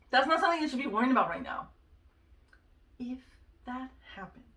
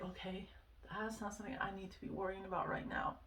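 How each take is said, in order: First: Louder, fast no-nonsense telling-off; firm self-scolding. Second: Soft, hushed inner voice, a bit fast; calm yourself down under your breath; quiet self-talk. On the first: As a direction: snap yourself out of it. Scolding herself over her worrying. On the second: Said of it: "it started to help me kind of be like". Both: Retold or imitated.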